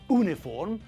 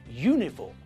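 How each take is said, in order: First: The word starts with a plain vowel sound. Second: The word starts with a y sound. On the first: The speaker calls it wrong. "It's not uniform" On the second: The speaker calls it right. "we pronounce all these words with a y sound at the front"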